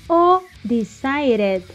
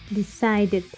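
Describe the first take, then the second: First: The middle consonant is a quick r-like tap. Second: The middle consonant is a hard d sound.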